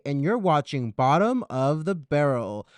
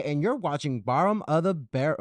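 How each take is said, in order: First: Loud show-host line with a distinct t in "Bottom"; corrected "Bottom". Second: Show-host line with a slurred middle in "Bottom"; misspoken "Bottom". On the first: Host redoes the show title, "Bottom" fully articulated. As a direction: pronounce the t of "Bottom" crisply. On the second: Host fluffs the show title, "Bottom" with its t lost. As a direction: soften the t in "Bottom" to an r-like flap. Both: Real, not acted. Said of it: "I didn't say bottom correctly".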